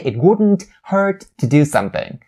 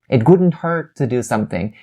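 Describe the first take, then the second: First: The T sounds are fully released. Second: The T sounds are stopped, not released. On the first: The speaker calls it wrong. "You don't say" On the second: The speaker calls it right. "going to sound so smooth and native"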